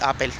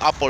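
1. Se pronuncia con sonidos ingleses. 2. Se pronuncia con sonidos españoles. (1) "se dice Apple" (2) "No se dice Apple"

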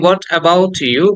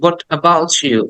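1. t আর y এর শব্দ আলাদা থাকে। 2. t আর y মিশে ch শব্দ হয়ে যায়। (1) "যেমন আমরা বলি" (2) "but the foreigners are the British said ... এখানে চয়ের মতো উচ্চারণ করে"

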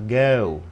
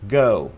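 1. Giọng Anh, với âm lướt rõ và đầy đặn. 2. Giọng Mỹ, với âm lướt ngắn hơn và nhanh hơn. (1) "người Anh đó, họ sẽ đọc cái này rất là rõ theo kiểu này" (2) "Tiếng Mỹ nó đọc gọn hơn, à, nhanh hơn"

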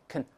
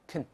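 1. 这个元音很弱，是弱化的。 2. 这个元音很弱，是弱化的。

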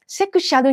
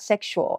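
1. 日本語の音で言う。se-ku-sha-ruみたいに。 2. 英語の音で言う。sek-shoo-ulみたいに。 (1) "セクシャルにならないように気をつけてください" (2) "sexual ってね。"

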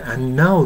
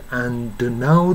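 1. dはnに飲み込まれています。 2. dもnも、どちらもはっきり発音されています。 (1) "do はno のに飲み込まれて、And now って言いますよね" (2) "do とno ははっきり発音して、And now と言ってますね"

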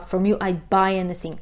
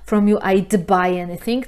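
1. D w "I'd" jest przytrzymane, bez wybuchu. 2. D w "I'd" jest wyraźnie wybuchowe. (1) "tylko śpiewa" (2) "Taylor nie śpiewa"

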